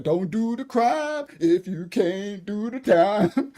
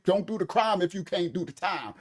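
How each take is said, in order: First: Drawn-out, slow saying, rising at the end; slow proverb. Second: Said in the usual way. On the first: Acted. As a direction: spell the old saying out slowly like a lesson to Beretta. A proverb preached at Beretta.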